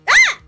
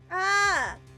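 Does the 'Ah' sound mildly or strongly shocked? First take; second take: strongly; mildly. First: It sounds strongly shocked and surprised. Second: It sounds only mildly shocked.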